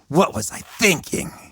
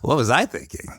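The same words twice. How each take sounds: First: It sounds harsh, judgmental and critical. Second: It sounds light, relaxed and easygoing. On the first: The speaker is scolding themselves. The speaker calls it wrong. "in a really harsh, judgmental, critical way" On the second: The speaker is shrugging off a mistake. The speaker calls it right. "in sort of fun, relaxed, I guess easy going, like whoopsie daisy kind of way"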